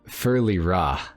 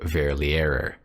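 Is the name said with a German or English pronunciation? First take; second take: German; English. First: The name is said with German pronunciation. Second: The name is said with English pronunciation. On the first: The speaker calls it right. "is how you actually say the word" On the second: The speaker calls it wrong. "which sounds ridiculous"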